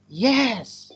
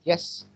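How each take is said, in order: First: It is said in a happy, enthusiastic tone. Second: It is said in a flat, neutral tone. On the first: The speaker is happy to accept. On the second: A plain factual answer.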